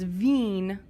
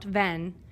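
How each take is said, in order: First: The vowel is a long 'ee' sound. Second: The vowel is a short 'e' sound. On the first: The speaker calls it right. "So it's veen" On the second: The speaker calls it wrong. "not ven"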